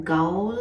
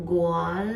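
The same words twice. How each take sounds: First: "गाओल" sounded out slowly as gah-ol; unsure pronunciation. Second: "गोआल" sounded out as go-aal; second guess, "गोआल" with the o before the long a; unsure pronunciation. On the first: Traveller guessing a prison's name, "गाओल" sounded out uncertainly. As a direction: tentatively try "गाओल" as spelt, with an "ao" glide. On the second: Traveller guessing a prison's name, "गोआल" tried uncertainly as go-aal. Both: Shown as a demonstration. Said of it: "मुझे नहीं पता pronounce कैसे करते हैं".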